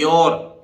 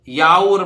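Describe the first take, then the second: First: The vowel is pronounced like 'or'. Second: The vowel is pronounced like 'ow'. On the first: The speaker calls it right. "बोलता है योर" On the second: The speaker calls it wrong. "याउर बोलना चाहिए ना, नहीं"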